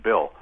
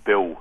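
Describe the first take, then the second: First: Said in the usual way. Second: BILL with a dark Philadelphia L, near "Biw"; Philadelphia accent. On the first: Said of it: "instead of Bill". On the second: Retold or imitated. Caller retells comedy routine, Philadelphia accent. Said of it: "the Philadelphia accent".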